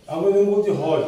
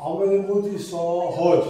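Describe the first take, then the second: First: Said in the usual way. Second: সহজ drawn out slowly, each অ clearly heard; slow demo of the vowels. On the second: Shown as a demonstration. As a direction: spell সহজ out slowly by sound for students. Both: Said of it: "অ এর উচ্চারণটা আসছে".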